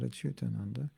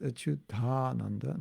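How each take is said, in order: First: "Achyutananda" with a short, unstretched "ta"; mispronunciation demo. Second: "Achyutananda" with a long stressed "taa"; correct joined pronunciation. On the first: Showing how not to say it, "Achyutananda" with short "ta". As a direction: say "Achyutananda" without lengthening the "ta". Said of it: "not Achyutananda". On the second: Explaining a name's pronunciation, "Achyutananda" with long joined "taa". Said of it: "the reason it's pronounced". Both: Shown as a demonstration.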